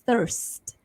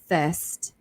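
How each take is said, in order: First: The R sound before the ST is pronounced. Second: The R sound is dropped, leaving only ST. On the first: "If you prefer to say the R, you can say thirst" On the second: "silent R ... So S T only"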